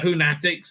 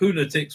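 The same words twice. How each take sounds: First: The stress is on the second syllable. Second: The stress is on the first syllable. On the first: The speaker calls it wrong. "emphasizing a second" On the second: The speaker calls it right. "rhymes with lunatics, not fanatics"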